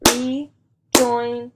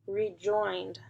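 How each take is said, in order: First: "Rejoined" split into beats, louder; clapped syllables. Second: Said in the usual way. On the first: Shown as a demonstration. Teacher claps syllables for the class, loud beats. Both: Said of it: "Let's clap it out".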